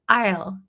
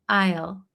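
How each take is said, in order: First: One short contracted syllable is pronounced. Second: One short contracted syllable is pronounced.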